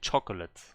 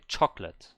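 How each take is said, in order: First: The middle vowel is pronounced as a full syllable. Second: The middle vowel is dropped from the word. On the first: The speaker calls it wrong. "You don't say chocolate" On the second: The speaker calls it right. "You say chocolate. The the O is silent"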